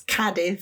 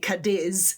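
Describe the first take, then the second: First: The stress is on the first syllable. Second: The stress is on the second syllable. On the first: The speaker calls it right. "It's Cadiz because the accent's on the A" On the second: The speaker calls it wrong. "People normally say Cadiz, but it's not"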